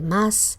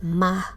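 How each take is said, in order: First: The final s sound is fully pronounced. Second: The final s sound is weakened. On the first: "en lugar de más" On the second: "el debilitamiento de la S implosiva"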